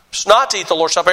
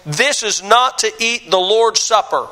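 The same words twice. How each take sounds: First: "not" still marked, the line said faster and a bit lower; quick restatement. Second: "not" leaned on in a slow reading of the verse; stress on not. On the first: Pastor repeating the verse to his church, quick, "not" still marked. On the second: Pastor reading the verse to his church, stress on "not". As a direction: read the verse slowly and weigh on "not". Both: Real, not acted.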